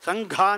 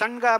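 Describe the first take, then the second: First: The middle consonant is aspirated. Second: The middle consonant is unaspirated. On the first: The speaker calls it right. "ಸಂಘ ಅಂತಂದರೆ ಅಲ್ಲಿ ಮಹಾಪ್ರಾಣ" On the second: The speaker calls it wrong. "ಸಂಘ ಬಿಡಿದ್ರೆ ಆಗೋದಿಲ್ಲ"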